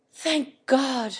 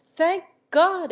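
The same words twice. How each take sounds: First: Fervent. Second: Second thank God cried out higher and louder; fervent, rising cry. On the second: Markham, hearing of Harriet's innocence, cries out fervently. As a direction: let the relief burst out. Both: A narrator's reading. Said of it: "fervently clasping his hands together".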